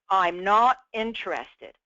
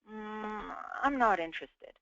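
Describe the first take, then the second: First: It is said directly with no hesitation first. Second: It starts with a hesitant pause before the words.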